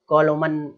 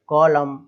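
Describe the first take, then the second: First: The word ends with an added n sound. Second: The word ends on an m sound. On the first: The speaker calls it wrong. "अरे भाई ऐसे नहीं पढ़ना है ना" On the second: The speaker calls it right. "ना कि कॉलोमन"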